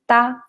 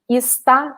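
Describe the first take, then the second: First: The word is said without its first syllable. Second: The word is said with its first syllable. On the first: "we say just tá" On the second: "instead of saying está"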